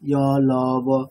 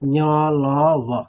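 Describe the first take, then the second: First: The sounds are said without any nasal quality. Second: The sounds are said through the nose, nasalized. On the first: "নাকের সাহায্য ছাড়াই করেন" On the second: "একটু নাকের সাহায্য নিয়ে করছেন, নাকে নাকে করতে হবে"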